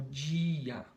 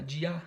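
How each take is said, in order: First: "dia" with a long, strong DI, DII-a; stress on DI. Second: "dia" with the final A stressed, di-A; stress on the wrong syllable. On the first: Teacher showing pupils the tonic syllable, stress on DI in "dia". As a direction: stretch and lean on the first syllable of "dia". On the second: Teacher testing the wrong stress for pupils, stressed on the last syllable of "dia". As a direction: shift the weight onto the last syllable of "dia". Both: Shown as a demonstration. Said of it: "tenta fazer uma mais forte que a outra".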